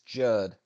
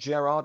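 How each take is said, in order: First: The name is pronounced as Gerd. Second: The name is pronounced as Gerard. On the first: The speaker calls it right. "it's Gerd. G E R D" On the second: The speaker calls it wrong. "It's not Gerard"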